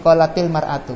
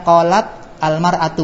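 First: A linking vowel joins qalat to the next word. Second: Qalat is said with no linking vowel added.

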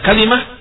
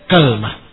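First: Three syllables, with a then i as the vowels. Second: Two syllables, with a first and no vowel after l. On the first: "dikasrahkan lamnya dan difathahkan kafnya" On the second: "Difathahkan kafnya ... dengan disukunkan lamnya"

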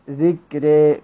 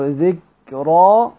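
First: The final vowel is tilted fully toward 'e'. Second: The final vowel is a fully open 'a'. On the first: "بالإمالة الكبرى" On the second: "هكذا بالفتح"

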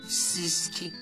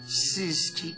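First: The word is said with a whistling lisp. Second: The word is said clearly without a whistle. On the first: This is how it comes out through a missing tooth. The speaker calls it wrong. "а у меня высвистывается" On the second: This is the word the character intends to say. The speaker calls it right. "Я хочу сказать"

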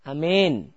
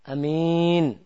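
First: The long vowel is bent toward an e sound. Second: The first vowel is short and the m single. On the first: "pakai E, imalah" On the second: "hamzahnya pendek"

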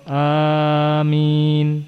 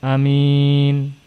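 First: The first vowel is drawn out long. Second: The first vowel is kept short. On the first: "amin bil mad wa takhfifil mim" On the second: "Dengan qasr pendek namun mimnya tidak ditasydid"

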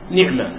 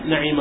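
First: The n has i, the ʿayn is unvowelled. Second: The n has a, the ʿayn has i. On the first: "المشهورة والأفصح نعمة بكسر النون وسكون العين" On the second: "بفتح النون وكسر العين"

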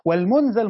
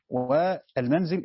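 First: The first vowel is u, the second a. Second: The first vowel is a, the second i. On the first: It names the act of being brought down. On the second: It names the place where one settles.

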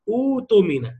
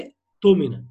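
First: A long u vowel comes right before the t. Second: A glottal stop comes right before the t. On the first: Reading starts at this word. "ابتدي بقى تقول له ايه؟" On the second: The word is joined to the word before it. "ده نطقها في العادي"

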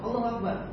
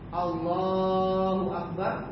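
First: The vowel in Allah is cut short. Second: The vowel in Allah is drawn out long. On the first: "Kalau pendek berarti kamu salah takbiratul ihramnya" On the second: "lafaz Allahnya panjang"

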